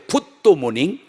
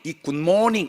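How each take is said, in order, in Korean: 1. 'good' 뒤에 'do' 소리가 하나 더 붙어요. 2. 그냥 그대로 말해요. 모음을 더 넣지 않아요. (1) "도자를 넣고 지나가야 됩니다" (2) "그 쉬운 굿모닝"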